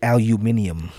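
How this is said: It is said the British way, aluminium.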